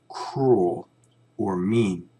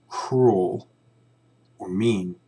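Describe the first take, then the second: Both takes have the same delivery.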